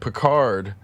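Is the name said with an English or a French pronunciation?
English. The name is said with an English pronunciation. The speaker calls it wrong. "That's not how you say it in French"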